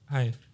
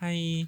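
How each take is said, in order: First: It is said in a flat, serious voice. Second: It is said in a cutesy, high baby voice.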